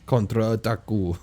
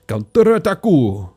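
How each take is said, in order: First: It is said with a Russian-sounding accent. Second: It is said with a Japanese-sounding accent. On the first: The speaker calls it right. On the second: The speaker calls it wrong.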